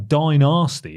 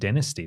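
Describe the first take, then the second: First: It is said with an American pronunciation. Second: It is said with a British pronunciation.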